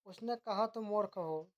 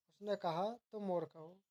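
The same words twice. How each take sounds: First: Said in the usual way. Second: "उसने कहा", a short break, then "तुम मूर्ख हो"; pause after कहा. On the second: Shown as a demonstration. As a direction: set the quote apart with a pause after "कहा". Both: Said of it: "अशुद्धि वर्तनी संबंधी वाक्य अशुद्धियाँ".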